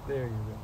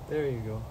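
The two takes are said the same way.

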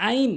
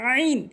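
First: আইন with a plain open vowel; wrong pronunciation. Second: আইন squeezed from mid-throat; correct pronunciation. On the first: Teacher showing learners the mistake, wrong আইন. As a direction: say আইন without any throat sound. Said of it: "ভুল উচ্চারণ". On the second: Teacher modelling for learners, correct throaty আইন. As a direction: start আইন with a drawn-out throat constriction. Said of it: "সঠিক উচ্চারণ হচ্ছে". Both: Shown as a demonstration.

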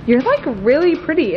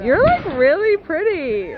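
First: Put-on a light Mean Girls Regina George accent, a bit louder; quick valley-girl Regina George voice, "like" leaned on. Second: Put-on high, slow, drawn-out Regina George accent with "like" stretched; full Mean Girls Regina George impression, "like" rising. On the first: Reading her phone case aloud to her friend, light Regina George accent. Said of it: "I love how you changed the accent". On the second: Redoing the phone case line for her friend, full Regina George accent. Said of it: "you have to say it in a Regina George accent".

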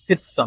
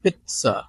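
First: Pizza without the t, PI-za; wrong pronunciation. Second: Pizza with a ts, PIT-sa; correct pronunciation. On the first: Teacher warns against this form, wrong pronunciation. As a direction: say pizza with a plain z. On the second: Teacher corrects the z form, correct pronunciation. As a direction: put a t before the s in pizza. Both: Shown as a demonstration. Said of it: "not pizza".

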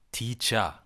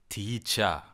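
The two takes are said the same way.

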